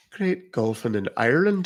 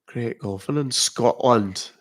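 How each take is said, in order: First: Light Irish accent; a touch of Irish on a short phrase. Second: Drawn-out Scottish accent; slow Scottish lilt on a short phrase. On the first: Streamer showing viewers another country's accent, Irish accent. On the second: Streamer showing viewers a UK accent by country, Scottish accent. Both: Shown as a demonstration. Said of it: "What country?".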